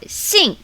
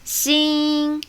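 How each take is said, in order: First: The syllable is said with tone four. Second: The syllable is said with tone one. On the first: "Tone four" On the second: "Tone one"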